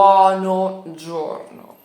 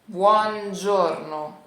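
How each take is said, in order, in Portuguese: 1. Duas palavras separadas, com um o depois de buon. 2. Uma palavra só, unida, sem o depois de buon. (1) "não é buono giorno" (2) "tudo junto, e a gente vai tirar o O"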